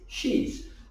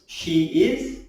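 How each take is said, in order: First: It is said as one shortened word. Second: It is said as two separate full words. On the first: "a smaller word is she's"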